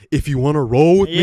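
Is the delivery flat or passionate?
passionate. It is said with strong passion and feeling. The speaker calls it right. "It was"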